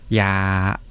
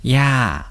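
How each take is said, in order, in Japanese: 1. 「ya」は平らな声調で言う。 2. 「ya」は下がる声調で言う。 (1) "これを平らにすると" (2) "これが下がる声調だと"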